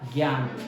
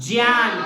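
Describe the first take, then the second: First: It begins with a g sound plus y. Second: It begins with a j sound. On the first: The speaker calls it wrong. "उसने लिखा ग या न" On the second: The speaker calls it right. "इसका उच्चारण क्या होगा"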